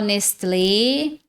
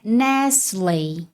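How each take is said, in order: First: It is said with Brazilian Portuguese pronunciation. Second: It is said in English, the t silent. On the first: The speaker calls it wrong. "No português, muita gente fala Nestlé" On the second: The speaker calls it right. "no inglês, a pronúncia é Nestlé. Esse T aqui é mudo"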